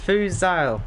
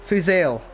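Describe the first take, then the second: First: Fuzal with an open "eye-l" ending, pitched up; first name attempt. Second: Fuzail with a narrower Northern Irish ending; corrected name pronunciation. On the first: Streamer attempting a viewer's name, Fuzal ending like "aisle". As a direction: say Fuzal as "foo-ZAIL", rhyming with "aisle". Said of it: "what are you trying to say?". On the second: Northern Irish streamer proving he can say Fuzail, tighter last vowel. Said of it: "I can say Fuzail". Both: Shown as a demonstration.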